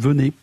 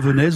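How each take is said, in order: First: The final consonant is silent, ending on the vowel. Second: The final consonant is pronounced, ending in an S sound. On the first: The speaker calls it right. "on dit Venez" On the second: The speaker calls it wrong. "On dit pas Venesse"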